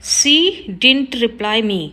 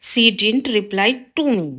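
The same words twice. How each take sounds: First: Slow, careful read of the wrong sentence; slow teacher dictation. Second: Slow, careful read of the corrected sentence; slow teacher dictation. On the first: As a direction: spell it out word by word for the class. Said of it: "wrong है sentence". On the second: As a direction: lay out each word clearly for the class. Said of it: "right होगा". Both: Shown as a demonstration.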